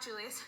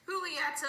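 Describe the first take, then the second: First: Julieta said with an English J sound; wrong pronunciation. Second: Julieta said with an H sound, hoo-lee-ET-a; corrected pronunciation. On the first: Correcting a slip, Julieta with a hard English J. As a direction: start Julieta with "joo", as in Juliet. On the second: Fixing the character's name, Julieta with Spanish H sound. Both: Shown as a demonstration. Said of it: "I mean, not Julieta".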